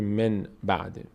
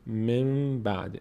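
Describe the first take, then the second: First: The first word ends with a clear n sound. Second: The first word ends with an m sound. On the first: The speaker calls it wrong. "نمیگه من بعد" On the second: The speaker calls it right. "نون تبدیل میشه به میم"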